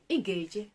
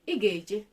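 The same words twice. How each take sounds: First: It is said with a level mid tone. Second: The same.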